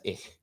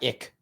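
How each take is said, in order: First: "ich" with a soft fricative ending; German pronunciation. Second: "ick" with a plain hard k; English pronunciation. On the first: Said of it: "In German, that is ich". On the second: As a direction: say "ick" closing firmly on k. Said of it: "that is not ick in German". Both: Shown as a demonstration.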